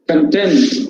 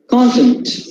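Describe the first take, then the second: First: The stress is on the second syllable. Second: The stress is on the first syllable. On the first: It is used as an adjective. "In adjective form, we can say content" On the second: It is used as a noun. "the vertical mark falls on the first syllable"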